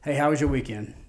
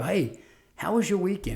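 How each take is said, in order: First: It sounds flat and perfunctory. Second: It sounds warm and genuinely interested. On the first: The interest is only a formality. "that's one thing" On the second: The interest is sincere and builds trust. "That's a whole different tone of voice that accompanies that, and it establishes trust"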